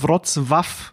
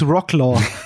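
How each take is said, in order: First: The consonant before the final vowel sounds like W. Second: The consonant before the final vowel sounds like L. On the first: The speaker calls it right. "weil bei diesem L, bei dem Polnischen, wenn da so ein Strich durchgeht, dann ist es, glaube ich, ein W" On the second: The speaker calls it wrong. "Es ist auf gar keinen Fall, es ist Rocklaw"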